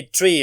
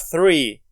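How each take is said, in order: First: "tree" with a hard T for "three"; Irish-style TH. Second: Said in the usual way. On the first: Shown as a demonstration. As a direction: say "tree", stopping the TH into a T. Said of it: "Some Irish people say tree". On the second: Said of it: "instead of three".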